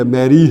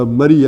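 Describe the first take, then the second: First: میری said MAI-ree, like English Mary; claimed original name. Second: مری said MA-ree, short first vowel; short a at the start of مری; local place-name. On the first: Teacher mocking the claimed derivation, میری as Mary. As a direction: open long e at the start of میری. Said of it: "اصل میں یہ میری ہے". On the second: Teacher giving the hill town's usual name, مری as ma-ree. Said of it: "انہیں مری مری کہنا شروع کر دیا". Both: Shown as a demonstration.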